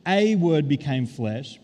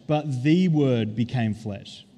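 First: A word became flesh, slow with a stressed and drawn out. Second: The word became flesh, slow with the stressed. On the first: Preacher sets a against the, stressing a slowly. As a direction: lean on the small word a and say it slowly. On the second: Preacher corrects a to the, stressing the slowly. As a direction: press hard on the word the, slow and deliberate. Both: Shown as a demonstration.

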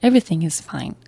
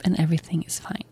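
First: Said in the usual way. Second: Whisper. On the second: Real, not acted. Calm ending after stressful night.

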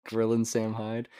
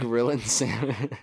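First: Said in the usual way. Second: Slow, put-on radio voice on the phrase; mock podcast host. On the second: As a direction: draw the name out like a host. Tries voice on phrase.

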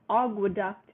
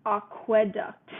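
First: Aqueduct with a reduced "uh" in the middle; aqueduct, middle syllable unstressed "kwuh"; second vowel reduced. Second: Aqueduct slowly, with a clear "eh" in the middle; slow aqueduct, sounding out the E; spelling pronunciation. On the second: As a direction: say aqueduct as AH-kweh-duct. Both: Shown as a demonstration. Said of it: "A Q U E versus A Q U A".

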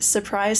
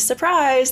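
First: Said in the usual way. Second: Surprise said higher and brighter; spring the word surprise up as a reveal; playful sing-song surprise; mock surprise. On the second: Repeated word, second pumped up.

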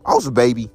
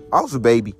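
The two takes are said the same way.

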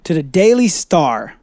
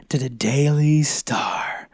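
First: Said in the usual way. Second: Slow stage whisper. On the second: Acted. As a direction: breathe the name in a hushed whisper. Repeats name in whisper.

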